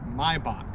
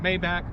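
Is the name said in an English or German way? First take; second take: German; English. First: The name is said with a German pronunciation. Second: The name is said with an English-style pronunciation. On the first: "the proper German pronunciation" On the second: "some people pronounce it"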